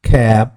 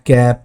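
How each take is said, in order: First: The first sound is an aspirated k. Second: The first sound is an unaspirated k. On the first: The speaker calls it right. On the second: The speaker calls it wrong.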